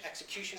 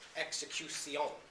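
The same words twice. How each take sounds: First: The ending is said as one syllable, shun. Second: The ending is said as two syllables, si-on. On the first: This is the modern English pronunciation. "we'd usually say in English" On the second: This is the Middle English verse pronunciation. "In Chaucer's verse, you pronounce all of those syllables"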